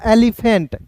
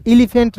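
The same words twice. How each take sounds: First: एलिफेंट opening on "eh", as "eh-li-fent"; first E as "e". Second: एलिफेंट opening on "ee", as "ee-li-fent"; first E as "i". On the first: Teacher concluding the rule, एलिफेंट begun with "eh". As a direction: say एलिफेंट with "eh" at the start. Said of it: "ई का उच्चारण ए के रूप में". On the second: Teacher warning students off a misreading, एलिफेंट begun with "ee". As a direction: say एलिफेंट with "i" at the start. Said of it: "एलिफेंट नहीं पढ़ेंगे". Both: Shown as a demonstration.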